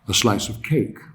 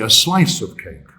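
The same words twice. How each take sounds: First: The stress falls on the word cake. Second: The stress falls on the word slice. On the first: "Cake would be naturally stressed" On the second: "change the stress in this particular example"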